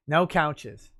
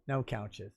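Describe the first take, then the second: First: Said in the usual way. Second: Much softer, lower repeat; quiet echo. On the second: Real, not acted. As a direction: say it again under your breath. Streamer repeats his answer.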